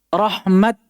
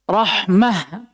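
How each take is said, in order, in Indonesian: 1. Kata itu berakhir dengan bunyi t. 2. Kata itu berakhir dengan bunyi h. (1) "tetap dibaca di atas ta" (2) "kita wakaf di atas ha"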